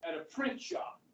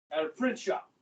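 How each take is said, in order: First: Whispered, rising on print; whispered aside. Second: Said in the usual way. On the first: Shown as a demonstration. Teacher repeating where he worked, whispered first. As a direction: whisper at a print shop under the breath.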